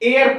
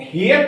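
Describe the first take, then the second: First: The initial h sound is silent. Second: The initial h sound is pronounced. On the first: The speaker calls it right. "एयर पढ़ा जाता है" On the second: The speaker calls it wrong. "But इसको हेयर नहीं"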